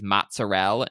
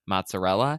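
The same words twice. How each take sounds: First: MOZZARELLA with the final "a" dropped; clipped-ending pronunciation. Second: Said in the usual way. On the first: Retold or imitated. Host quoting a New Jersey TikToker, mozzarella without its last vowel. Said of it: "the way she says". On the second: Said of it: "instead of mozzarella".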